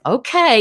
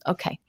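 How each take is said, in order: First: Said in the usual way. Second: Much softer, a private thought; quiet inner thought. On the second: Retold or imitated. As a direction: say it under your breath, to yourself. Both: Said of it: "so I thought".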